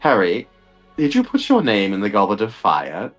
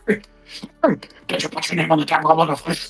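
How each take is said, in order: First: It is said calmly and gently. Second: It is said in an agitated way.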